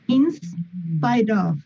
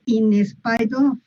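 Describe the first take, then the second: First: The s joins the preceding word with no extra vowel. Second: An extra vowel sound comes before the s. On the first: The speaker calls it right. "Lo que van a hacer es pegar esa S al ins" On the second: The speaker calls it wrong. "se van a quitar de estar diciendo"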